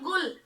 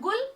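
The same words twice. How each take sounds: First: The word begins with a throaty, rasping gh sound. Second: The word begins with a plain, hard g sound. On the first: It means noise. "नुक्ता के साथ क्या बोलेंगे?" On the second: It means a flower. "बिना नुक्ता के शब्द गुल"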